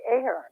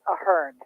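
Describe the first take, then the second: First: The name is pronounced the American way. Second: The name is pronounced the Irish way. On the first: This is how people in the country commonly say it. "here in America, people say Ahern" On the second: This is the original pronunciation of the name. "the name is an Irish name, and it is said Ahern"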